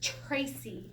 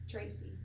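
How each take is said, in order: First: The t is said with a strong puff of air. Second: The t is said with no puff of air. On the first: "in English, we say T. I literally like kind of spit on myself" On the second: "In Hebrew, it's not like that. You just touch the back of your T"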